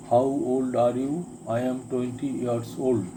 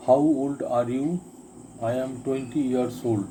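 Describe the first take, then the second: No difference in how they are said.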